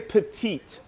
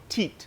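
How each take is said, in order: First: The word is said with both syllables. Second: The first syllable is dropped, leaving one. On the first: This is how others say it, not Quebecers. "They don't say petite" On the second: This is how Quebecers say it. "They cut off the P E and they go teat"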